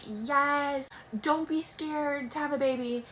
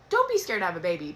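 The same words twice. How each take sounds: First: Slow, high, mock-upbeat cheer; a hammed-up pep talk, drawn out; empowering voice. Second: Said in the usual way. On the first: Shown as a demonstration. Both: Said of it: "I want nothing more than to be empowering".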